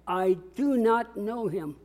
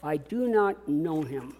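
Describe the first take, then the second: First: I do not know him, read slowly, word by word; slow read-along. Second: I do not know him said slowly and softly; painful denial. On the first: Preacher reading slowly with the congregation. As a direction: lead the room through it slowly. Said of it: "Let's read the whole text out loud together". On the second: Preacher voicing Peter's denial, softly pained. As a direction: let the pain sit in it. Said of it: "is that painful?". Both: Shown as a demonstration.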